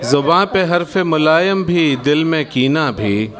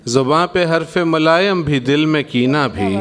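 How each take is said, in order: Both takes have the same delivery.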